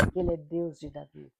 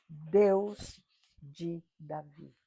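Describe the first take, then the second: First: Said in the usual way. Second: "Deus de Davi" drawn out very slowly, DEUS stressed; slow emphasis. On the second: Shown as a demonstration. Preacher stressing to the congregation that Jesus is God, slow and weighty. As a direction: lean on DEUS, stretching every word slowly.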